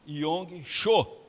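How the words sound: The name has a Brazilian Portuguese pronunciation.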